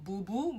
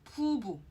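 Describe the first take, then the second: First: The word begins with a voiced b sound. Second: The word begins with a p sound. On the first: The speaker calls it wrong. "it's not boo boo" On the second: The speaker calls it right. "but poo boo"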